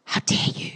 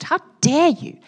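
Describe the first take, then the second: First: Hurt, hushed whisper; whispered accusation. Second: Raised, indignant demand; accusing God. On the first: Believer confronting God, collapsing into a whisper. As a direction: breathe the words, spent. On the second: Believer confronting God in anger, raised and indignant. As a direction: throw the question at God. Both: Retold or imitated.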